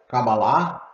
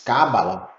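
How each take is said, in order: First: It is pronounced the Hebrew way. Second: It is pronounced the Spanish way. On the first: "como se pronuncia em hebraico" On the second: "Em espanhol se diz"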